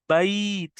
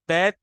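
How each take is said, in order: First: The vowel is drawn out softly and gently. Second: The vowel is short and clipped. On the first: The speaker calls it right. "अरबी में उसको बैत कहते हैं" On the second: The speaker calls it wrong. "बैत नहीं कहते उसको"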